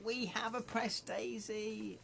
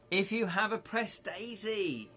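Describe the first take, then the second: First: Mock read-out. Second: Said in the usual way. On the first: Shown as a demonstration. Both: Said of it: "I read that out".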